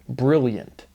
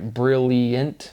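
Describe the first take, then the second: First: The syllables are slurred together with a Y sound. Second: Each syllable is said carefully and distinctly. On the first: "is how you kind of like slur through it if you slander the I" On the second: "That's probably how you pronounce it"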